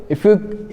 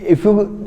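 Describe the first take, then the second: Both takes have the same delivery.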